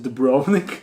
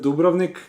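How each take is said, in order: First: It is said with an American pronunciation. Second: It is said with a Croatian pronunciation.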